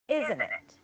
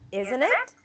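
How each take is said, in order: First: The voice falls at the end. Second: The voice rises at the end.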